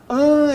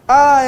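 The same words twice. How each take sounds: First: The vowel is nasal, with air through the nose. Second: The vowel is oral, with no nasal airflow. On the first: "Você produz um som pela cavidade bucal juntamente com a nasal" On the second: "Todo o som passando pela cavidade bucal"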